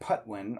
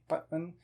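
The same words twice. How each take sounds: First: The first P has a puff of air. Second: The first P has no puff of air. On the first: The speaker calls it wrong. "instead of saying Putwin" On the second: The speaker calls it right. "with a muted P, like the Spanish P"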